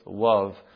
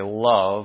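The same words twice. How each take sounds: First: The word begins with a W sound. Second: The word begins with an L sound. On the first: A little child says it. "It's with a W" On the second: An adult says it. "say love with an L"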